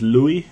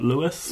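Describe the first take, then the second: First: The name is pronounced the French way. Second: The name is pronounced the English way. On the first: The speaker calls it right. "because he's French, so I'm going to say it's Louis" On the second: The speaker calls it wrong. "not Louis"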